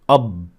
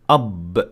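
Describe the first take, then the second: First: The final consonant is held and sounds muffled. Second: The final consonant is released with a small burst. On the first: The speaker calls it wrong. "A letter sounds very muffled" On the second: The speaker calls it right. "they should sound like this"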